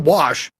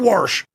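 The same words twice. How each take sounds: First: The word is said without an R sound. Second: The word is said with an R sound.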